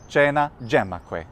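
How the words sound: Latin spoken with an Italian pronunciation. "in Italy"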